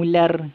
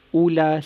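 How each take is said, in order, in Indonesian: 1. Vokalnya dimulai dengan ditekan di tengah tenggorokan. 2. Vokalnya dimulai dengan biasa. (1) "Kan lain?" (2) "Sebutan dia macam biasa"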